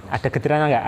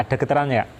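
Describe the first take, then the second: Both takes have the same delivery.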